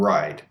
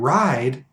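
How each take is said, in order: First: The vowel sounds relaxed and smaller. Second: The vowel sounds full and open. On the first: "sound more like south and ride" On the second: "words like south and ride"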